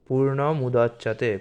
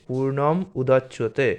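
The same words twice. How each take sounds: No difference in how they are said.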